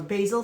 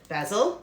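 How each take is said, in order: First: It is said in an American pronunciation. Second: It is said in a non-American pronunciation.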